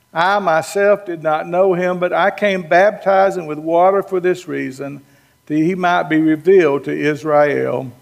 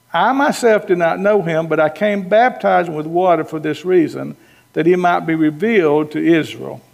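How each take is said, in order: Both takes have the same delivery.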